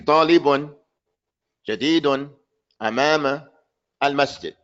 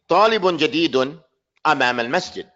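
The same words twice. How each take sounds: First: There is a pause after every word. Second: There is one pause, splitting two phrases. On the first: The speaker calls it wrong. "Don't say talibun, jadidun, amama, al masjid" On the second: The speaker calls it right. "Stop two times. Say talibun jadidun, amama al masjid"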